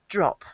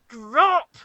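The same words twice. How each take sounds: First: The word is said in a calm, plain way. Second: The word is said in a sharp, aggressive way. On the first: "They will go" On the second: "like that. And it becomes quite an aggressive thing"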